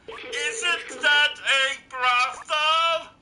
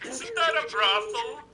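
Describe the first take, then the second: First: It is said louder. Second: It is said at normal, quieter volume.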